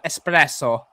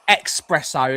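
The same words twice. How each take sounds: First: The word starts with a plain s sound. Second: The word starts with a k sound before s. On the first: The speaker calls it right. "It's an S" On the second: The speaker calls it wrong. "when people say espresso"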